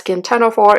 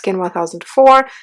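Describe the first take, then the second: First: The number is read as ten oh four. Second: The number is read as one thousand four. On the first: "not Skin ten oh four" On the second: "It's not Skin one thousand four"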